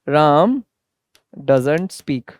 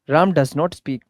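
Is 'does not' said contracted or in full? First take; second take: contracted; in full. First: Does not is shortened into one word, doesn't. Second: Does not is said as two full words.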